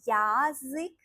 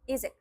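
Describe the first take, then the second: First: The first vowel is a full 'ya' sound. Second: The first vowel is reduced to an 'i' sound. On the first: "it's difficult to pronounce the word yazık" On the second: "That's why we say izik"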